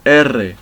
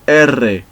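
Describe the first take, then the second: No difference in how they are said.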